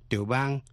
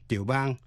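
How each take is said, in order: The two takes are said the same way.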